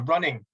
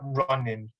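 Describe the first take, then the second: First: The ending is an ng sound. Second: The ending is a plain n sound. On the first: This is the standard variant, used more in careful speech. "increase their um, the amount of times they use the running pronunciation" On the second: This is the non-standard variant, used less in careful speech. "they reduce the, the extent to which they use that run-in pronunciation"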